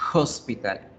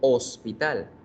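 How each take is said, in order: First: The word starts with a breathy h sound. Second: The word starts with no h sound. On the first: "en inglés, vean, la H tiene sonido de H" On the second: "En español, la H no suena en la palabra hospital"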